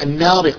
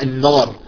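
First: The n sound is light and thin. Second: The n sound is heavy and emphatic. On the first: The speaker calls it right. "المفروض نقرأها النار" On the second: The speaker calls it wrong. "يقرؤونها النار"

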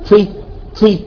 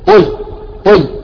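First: The ta is light, without raising the tongue. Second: The ta is heavy, with the tongue raised. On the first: The speaker calls it wrong. "لا ما تقول طي طي" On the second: The speaker calls it right. "يجب أن تستعلي وتطبق"

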